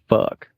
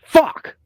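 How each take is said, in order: First: The word is said in a sexy tone. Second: The word is said in an angry tone.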